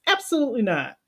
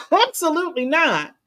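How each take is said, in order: First: Said in the usual way. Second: Higher, with a laugh on Absolutely; a chuckling no; laughing emphatic refusal. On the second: Real, not acted. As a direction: laugh it off firmly.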